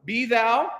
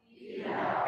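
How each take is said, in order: First: "Be thou" clear, rising on thou; "Be thou" modelled for the choir; model pronunciation. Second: "Be thou" echoed back; the choir answers "Be thou". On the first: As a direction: say "Be thou" with the lift on thou. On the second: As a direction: repeat "Be thou" after the teacher. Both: Shown as a demonstration. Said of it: "can you say".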